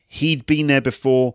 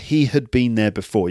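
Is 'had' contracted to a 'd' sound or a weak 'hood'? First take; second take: contracted; weak hood. First: 'Had' is reduced to a short 'd' sound. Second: 'Had' is a weak syllable sounding like 'hood'.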